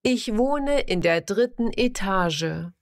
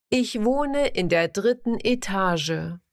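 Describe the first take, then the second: No difference in how they are said.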